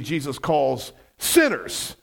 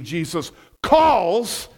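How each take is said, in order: First: The stress is on sinners. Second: The stress is on calls.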